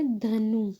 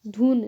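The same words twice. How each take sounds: First: धनु said by mistake, with the vowel after न instead of after ध; wrong word धनु, quickly corrected; slip of the tongue. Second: धुन said right, short u after ध, ending on न; self-correct to धुन; right word धुन after the slip. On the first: Real, not acted. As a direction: misread धनु for the word धुन. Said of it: "धुन, sorry". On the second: Shown as a demonstration. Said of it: "sorry".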